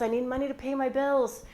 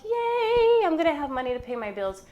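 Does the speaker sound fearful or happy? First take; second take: fearful; happy. First: It is said in a fearful, anxious way. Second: It is said in a happy, excited way.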